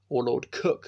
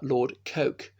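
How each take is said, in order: First: The name rhymes with book. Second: The name rhymes with smoke. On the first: "as some people pronounce it" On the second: "is spelled Coke"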